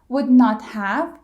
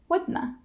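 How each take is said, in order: First: All three words are said in full. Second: It is squeezed to one word ending in schwa.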